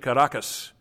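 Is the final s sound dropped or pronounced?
pronounced. The final s sound is pronounced. "They don't say Caracas"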